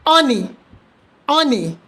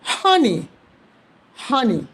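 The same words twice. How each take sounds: First: Honey said as oney; wrong, H dropped. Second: Honey with a clear breathy H at the start; right, with H. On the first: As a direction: drop the H in honey. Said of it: "Do not say honey". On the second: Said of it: "Say honey". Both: Shown as a demonstration.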